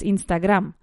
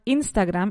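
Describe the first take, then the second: First: The stress is on the last part. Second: The stress is on the first syllable. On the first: The speaker calls it right. "the accent recae en la segunda parte" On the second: The speaker calls it wrong. "primera sílaba"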